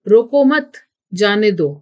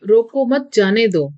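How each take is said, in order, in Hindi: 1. mat के बाद विराम है। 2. यह बिना किसी विराम के बोला जाता है। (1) "रोको मत के बाद कुछ देर ठहरना पड़ेगा" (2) "यह एक अस्पष्ट वाक्य है"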